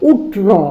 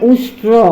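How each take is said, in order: First: The sh sound before t is dropped. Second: Both the sh and r sounds are kept. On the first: The speaker calls it wrong. "মানে উষ্ট্র বলতে চাচ্ছে" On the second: The speaker calls it right. "মানে উষ্ট্র বলতে চাচ্ছে"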